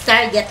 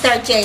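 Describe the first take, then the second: First: The name ends with a hard 'get' sound. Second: The name ends with a soft 'zhay' sound. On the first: This is the speaker's own everyday way of saying it. "Pero sa akin, guys, Target yan" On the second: This is the fancier way other people say it. "Ang iba niyan is Tarjay, the proper pronunciation"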